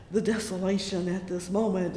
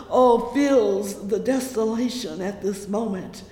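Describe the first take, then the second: First: Said in the usual way. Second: Loud falling preaching cry; fervent cry. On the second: Acted. Preacher crying desolation to the congregation, loud. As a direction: throw the phrase out to the church.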